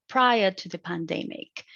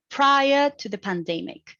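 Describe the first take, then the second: First: "prior" hit as the onset, nucleus falling on "pandemic"; stress on prior. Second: "prior to the pandemic" said higher, rising at the end; "pandemic" lifted into a rise, not done yet. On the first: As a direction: lean on "prior", land on "pandemic". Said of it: "I set the nucleus on pandemic and the onset on prior". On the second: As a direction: let "pandemic" rise, unfinished. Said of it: "So it has a rising tones too". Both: Shown as a demonstration.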